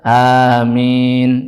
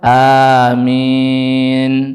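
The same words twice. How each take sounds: First: The final vowel is held only briefly. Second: The final vowel is drawn out longer. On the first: The congregation follows an imam who keeps it short. "pengennya yang pendek, dua harokat saja" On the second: The congregation follows an imam who lengthens it. "kalau imamnya agak panjang"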